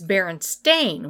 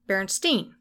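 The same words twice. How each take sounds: First: The last syllable sounds like 'stain'. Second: The last syllable sounds like 'steen'. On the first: "with an A-I instead of an E-I" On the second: "With the last syllable pronounced Steen"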